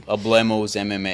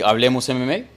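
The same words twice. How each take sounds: First: 'Hablemos' said as uh-BLAY-mose, Americanized; American accent Spanish. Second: 'Hablemos' said as ah-vleh-mos; Spanish pronunciation. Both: Shown as a demonstration. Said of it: "say it like a gringo would say".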